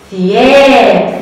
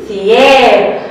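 First: ثياب stretched very slowly and a bit louder; slow model word. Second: Said in the usual way. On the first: Shown as a demonstration. Teacher to children, modelling ثياب very slowly. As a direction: draw out every sound of ثياب.

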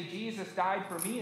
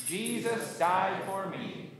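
First: Said in the usual way. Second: Slow, evenly spaced declaration; congregational recitation. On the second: Shown as a demonstration. Pastor leading congregation's profession of faith, slow recitation. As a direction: stretch each word for a group to follow. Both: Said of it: "and say it with me".

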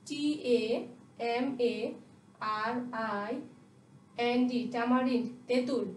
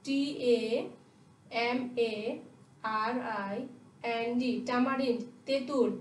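Both takes have the same delivery.

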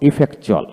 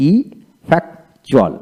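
First: Said in the usual way. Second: Slow ইফেক্টুয়াল in separate pieces; broken into syllables. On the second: Shown as a demonstration. Teacher breaking ইফেক্টুয়াল down for learners, slow with gaps. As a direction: pull ইফেক্টুয়াল apart, syllable by syllable. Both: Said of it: "এইভাবে ভেঙে ভেঙে".

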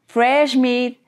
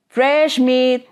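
The two takes are said the same way.

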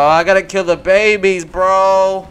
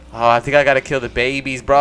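First: Higher, louder, slower hammed-up lament; mock anguish. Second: Said in the usual way. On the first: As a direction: whine it like a tragic confession.

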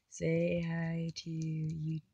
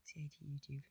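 First: Slow prompt. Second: Much softer say hi to YouTube, almost under breath; quiet aside to the camera; soft repeat. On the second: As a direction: drop to a murmur for "Say hi to YouTube.". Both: Shown as a demonstration.

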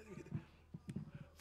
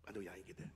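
First: Whispered aside. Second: Quiet aside. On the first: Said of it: "whispered repeat of aside". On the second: Muttered aside to congregation. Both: Real, not acted.

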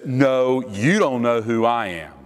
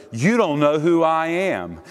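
First: Measured counter-challenge, stressing "you"; superior comeback. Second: Higher-pitched, emphatic challenge; self-important challenge. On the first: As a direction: turn it back on them with a weighted "you". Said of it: "the actual greater of the two". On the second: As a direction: pull rank, leaning on "don't". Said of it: "who thinks he's the greater". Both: Acted.

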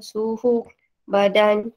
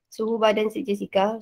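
First: Suhu badan drawn out slowly, each word weighted; slow stress. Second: Said in the usual way. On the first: Shown as a demonstration. (sebut suhu badan perlahan-lahan dengan tekanan)

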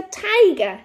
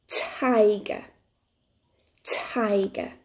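First: Said in the usual way. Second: "Tiger" drawn out slowly for learners; nice and slowly. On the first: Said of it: "let's say that word together". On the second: Shown as a demonstration. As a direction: stretch "Tiger" out, first sound distinct. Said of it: "nice and slowly".

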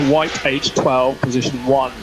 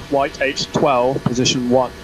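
The two takes are said the same way.

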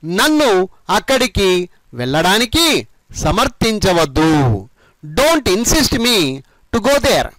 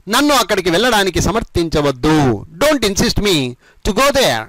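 First: Slow, phrase by phrase with pauses; measured model sentence. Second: Brisker run-through, phrases linked; all joined together. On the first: Teacher modelling the whole translated sentence, phrase by phrase. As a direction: draw out each phrase for learners. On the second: Teacher repeating the whole sentence for learners, joined up. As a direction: say the whole sentence with few breaks. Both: Shown as a demonstration. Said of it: "మొత్తం కలిపి ఈ విధంగా చెప్పండి".

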